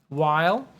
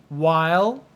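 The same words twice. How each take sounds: The two takes are said the same way.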